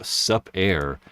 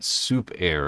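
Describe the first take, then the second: First: The first syllable rhymes with cup. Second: The first syllable rhymes with loop. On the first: The speaker calls it wrong. "I always pronounce it su- sup air" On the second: The speaker calls it right. "It's one hundred percent soup air"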